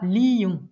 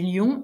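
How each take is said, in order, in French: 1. Les voyelles sont séparées en deux syllabes. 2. Les voyelles se fondent en une seule syllabe. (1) "on le prononcera lion" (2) "j'ai lion"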